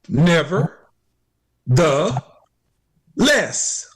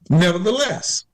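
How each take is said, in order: First: It is said slowly, in separate parts. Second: It is said quickly, as one word.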